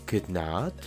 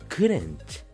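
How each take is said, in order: First: It is said as two full words. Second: It is said as one contracted word. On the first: The speaker calls it wrong. "En vez de decir" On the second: The speaker calls it right. "mejor di"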